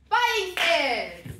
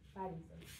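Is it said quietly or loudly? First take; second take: loudly; quietly. First: It is said loudly, with high energy. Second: It is said quietly, with low energy.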